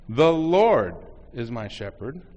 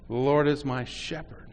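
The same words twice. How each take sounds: First: The word "Lord" is stressed. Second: The word "shepherd" is stressed.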